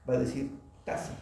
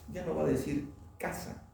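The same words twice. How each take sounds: First: Put-on taza instead of casa, said like a child who cannot lift the tongue; mock child's mispronunciation. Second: Said in the usual way. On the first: Shown as a demonstration. Teacher showing a child's error: taza for casa. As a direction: swap the k for a t, like a child. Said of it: "si el niño tiene dificultad para levantar la lengua".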